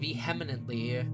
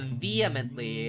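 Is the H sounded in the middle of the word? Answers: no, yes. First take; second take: yes; no. First: The H in the middle is clearly sounded. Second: The H in the middle is left silent. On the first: "I like pronouncing the H" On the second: "It's not as fun when you don't pronounce the H"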